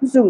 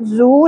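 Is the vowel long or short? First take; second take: short; long. First: The vowel is kept short. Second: The vowel is stretched out long. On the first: The speaker calls it right. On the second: The speaker calls it wrong.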